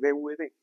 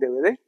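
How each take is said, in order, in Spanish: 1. Las letras se dicen al estilo español. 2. Las letras se dicen al estilo inglés. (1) "se le sale el, el españolete y dice D V D" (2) "Todos ustedes dicen D V D"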